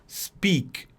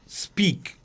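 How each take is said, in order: Both takes have the same delivery.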